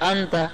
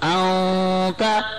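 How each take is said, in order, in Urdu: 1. "n" واضح طور پر ادا ہوتا ہے، اس میں غنہ کا چھپاؤ نہیں۔ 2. "n" غنہ کی آواز کے ساتھ چھپا ہوا ہے۔ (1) "بس یوں پڑھائے گا انتا, یہ غلط ہے" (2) "پیغمبر کی سنت کیا ہے؟ طریقہ انتا"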